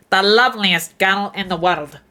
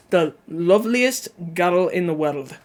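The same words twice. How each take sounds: First: Pinched-nose Glaswegian attempt; nasal Glaswegian accent. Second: Scottish guddle without pinching the nose; Scottish accent. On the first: Streamer testing chat's tip, nasal Glaswegian accent. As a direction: push the Glaswegian line through the nose. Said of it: "just pinch your nose and speak". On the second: Learner retrying tutorial phrase, plain Scottish accent. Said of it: "so that girl becomes guddle". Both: Shown as a demonstration.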